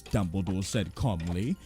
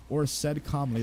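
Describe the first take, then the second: First: Calm narration. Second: Said in the usual way. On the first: Retold or imitated. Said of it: "every other line is". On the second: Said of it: "Dumbledore asked calmly".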